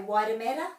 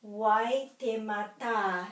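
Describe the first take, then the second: First: "Waitemata" run together quickly, without a long final A; common anglicised pronunciation. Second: "Waitemata" said slowly, final TA long and emphasised; stress on final TA. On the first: Teacher showing how people normally say the name, anglicised. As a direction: say "Waitemata" casually, last syllable unstressed. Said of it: "people would normally say Waitemata". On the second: Teacher modelling the macron in a Māori place name, slow stress on TA. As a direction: draw out the last "ta" of "Waitemata". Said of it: "putting my emphasis for the word on the ta".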